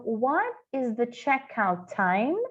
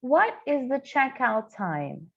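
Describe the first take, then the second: First: Slow, clear model question; slow careful English model; slow teaching demo. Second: "What" with no final T, slowly; slow repeat, "What" without its T; silent final T. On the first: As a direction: say it slowly for students. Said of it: "Então". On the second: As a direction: drop the T at the end of "What". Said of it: "esse T no final de what, que eu não ouço". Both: Shown as a demonstration.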